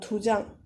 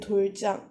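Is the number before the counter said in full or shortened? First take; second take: shortened; full. First: The number is shortened to du. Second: The number is said in full as dul. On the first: The speaker calls it right. "you're saying" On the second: The speaker calls it wrong. "You wouldn't say"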